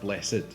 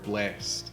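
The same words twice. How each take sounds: First: The word is said as two syllables. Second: The word is said as one syllable. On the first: "there's the double syllable" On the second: "there's the single syllable"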